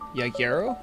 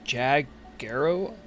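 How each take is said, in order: First: The name is said with a Spanish-style first sound. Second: The name is said with an English-style first sound.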